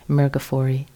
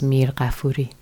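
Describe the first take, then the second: First: The name is said with an American pronunciation. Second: The name is said with a Persian pronunciation. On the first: "the Americanized version of it is" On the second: "the Persian pronunciation is"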